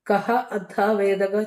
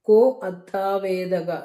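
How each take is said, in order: First: The words are kept apart, ending kah. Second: The words are joined, kah becoming ko.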